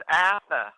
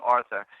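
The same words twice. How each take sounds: First: Higher Boston call with dropped R; Boston accent. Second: Said in the usual way. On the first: Retold or imitated. Cousin in Massachusetts addressing the speaker, Boston accent. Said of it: "in her Boston accent". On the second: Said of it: "that's the Boston way of saying".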